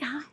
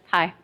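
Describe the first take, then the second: First: The greeting sounds warm and excited. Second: The greeting sounds cold and dismissive. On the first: The speaker wants to connect and play. "For you, I got down, like" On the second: The speaker looks down on the listener. "dismissively just kind of"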